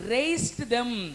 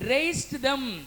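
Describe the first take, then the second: No difference in how they are said.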